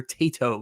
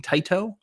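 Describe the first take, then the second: First: "Tato" with first syllable like "tay"; corrected pronunciation. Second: "Taito" with first syllable like "tie"; mispronounced Taito. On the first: Promising to get it right, "Tato" said as tay-toe. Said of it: "I will try to remember Tato". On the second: Apologizing for his dialect, "Taito" said as tie-toe. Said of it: "I apologize for saying Taito". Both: Shown as a demonstration.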